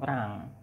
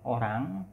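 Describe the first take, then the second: First: The first vowel is dropped, one syllable. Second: The word is said in full, two syllables. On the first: "atau rang" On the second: "bisa dengan orang"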